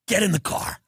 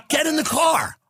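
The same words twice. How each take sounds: First: Said in the usual way. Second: Higher, pushier get in the car; eager command. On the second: Retold or imitated. Comic to a friend, eager urging. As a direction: urge them into the car. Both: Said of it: "I said".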